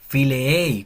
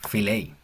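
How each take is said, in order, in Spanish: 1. Las dos vocales e se pronuncian por separado. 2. Las dos vocales e se fusionan en un solo sonido. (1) "quedaría como fileei, como con dos E" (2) "se fusionan y queda como una sola"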